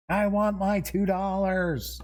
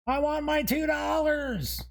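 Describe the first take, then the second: First: A little higher and punchier quoted demand; movie quote. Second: Much higher, squeaky quoted demand; movie quote. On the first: Host repeating the movie quote to himself, punchier. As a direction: repeat the line with more push on want. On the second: Host blurting a movie quote while flipping monster pages, high-pitched. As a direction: blurt out the famous line in a high voice. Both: Acted. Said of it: "I don't know why that just popped in my head".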